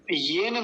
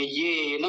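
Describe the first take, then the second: First: येन said short, without lingering on ये; wrong example: hurry through येन; wrong short form. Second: येन with a long ये and light na. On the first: (येन, गलत उदाहरण, छोटा बोलकर) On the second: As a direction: stretch the first syllable of येन. (येन में ये लंबा) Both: Shown as a demonstration. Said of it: "येन नहीं बोलेंगे".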